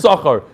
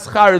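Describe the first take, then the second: First: The first vowel is full, two clear syllables. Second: The first vowel is dropped, one short syllable. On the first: The speaker calls it right. "It's shachar" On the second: The speaker calls it wrong. "don't ever say schar"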